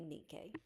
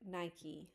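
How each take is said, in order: First: The name is pronounced the Greek way. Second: The name is pronounced the English way. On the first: "but in Greek, it would be Nikke" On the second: "In English, we pronounce this word Nike"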